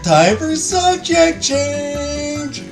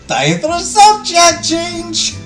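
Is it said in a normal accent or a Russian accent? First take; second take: normal; Russian. First: It is said in the speaker's normal accent. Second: It is said in a put-on Russian accent.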